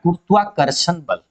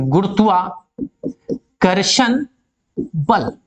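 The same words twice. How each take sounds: First: Said in the usual way. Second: Teacher stretching गुरुत्वाकर्षण very slowly so the class can follow; drawn out for emphasis. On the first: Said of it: "गुरुत्वाकर्षण (drawn out repeat)". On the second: Shown as a demonstration. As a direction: spell out गुरुत्वाकर्षण slowly so students catch it. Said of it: "गुरुत्वाकर्षण (slow repeat)".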